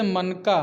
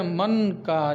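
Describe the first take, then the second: First: मनका run together as one word; joined, no pause. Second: मन का drawn out slowly as two words; separated by juncture. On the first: Teacher demonstrating juncture, मनका joined as one word. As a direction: say मनका without a break between मन and का. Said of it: "शब्दों और वाक्यों के उच्चारण क्रम में अल्पकालीन". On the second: Teacher demonstrating juncture, मन का slowly split in two. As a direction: hold मन, then give का separately. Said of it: "मौनावस्था या विरामावस्था को संगम कहते हैं". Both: Shown as a demonstration.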